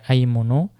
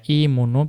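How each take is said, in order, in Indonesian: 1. Kata aymunu diawali dengan vokal 'a'. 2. Kata aymunu diawali dengan vokal 'i'. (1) "yang rojih ... dengan difathahkan" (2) "bisa dibaca imunu"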